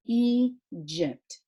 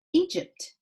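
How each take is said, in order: First: Egypt split in two, E, then gypt; sounded out. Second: Said in the usual way. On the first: Shown as a demonstration. Teacher showing pupils the two sounds, Egypt sounded out in parts. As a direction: break Egypt apart after the E. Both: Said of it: "So it has two special sounds".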